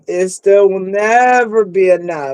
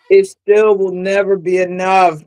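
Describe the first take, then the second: First: NEVER drawn out for emphasis; stress on NEVER. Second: Said in the usual way. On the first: Real, not acted. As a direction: lean hard on "never", stretching it. Repeats line, leaning on never.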